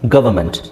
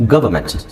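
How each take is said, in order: Both takes have the same delivery.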